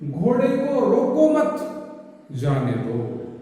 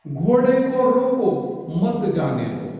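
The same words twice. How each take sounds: First: The pause comes right after 'मत', before 'जाने'. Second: The pause comes right after 'रोको', before 'मत'.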